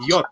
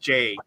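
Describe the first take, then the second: First: The letter is said with its Polish name. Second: The letter is said with its English name. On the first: "in Polish it is J" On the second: "It's not J"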